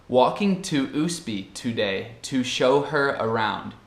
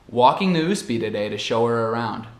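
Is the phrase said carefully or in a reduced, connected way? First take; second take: careful; reduced. First: Each word is said slowly and fully. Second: The words are run together with reduced vowels. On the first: "A forma certa, ou muito pausada" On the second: "muito mais normal"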